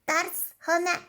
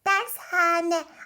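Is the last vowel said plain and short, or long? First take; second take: plain short; long. First: The last vowels are plain and short. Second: The middle vowel is long and drawn out. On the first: The speaker calls it wrong. "Dershane de ne ya?" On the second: The speaker calls it right. "Doğrusu dershane"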